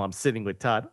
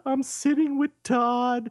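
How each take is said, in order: First: Said in the usual way. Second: High, drawn-out crowing; gleeful mock boast. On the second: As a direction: stretch it out high, showing off. Replays the text with glee.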